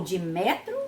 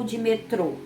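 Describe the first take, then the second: First: "metro" stressed on an open "mé"; stress on first syllable. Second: "metrô" stressed on a closed final "trô"; stress on last syllable. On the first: Teacher offers pupils first option, stress on first syllable. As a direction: hit the first syllable of "metro", leave the last weak. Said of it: "escolha a palavra certa para completar cada frase". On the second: Teacher offers pupils second option, stress on last syllable. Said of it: "observando aí o acento". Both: Shown as a demonstration.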